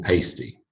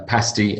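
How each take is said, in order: First: Pasty with the a of paste; long-a pasty. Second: Pasty with the a of cat; short-a pasty. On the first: Teacher listing four pairs, long-a pasty. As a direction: say pasty as PAYS-tee. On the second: Teacher listing four pairs, short-a pasty. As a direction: say pasty as PASS-tee. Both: Shown as a demonstration. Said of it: "four pairs of these heteronyms".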